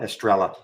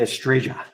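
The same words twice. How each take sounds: First: It is said with an American English pronunciation. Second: It is said with a Colombian Spanish pronunciation. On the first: "Or if you're in the U S" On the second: "Or if you're in Colombia"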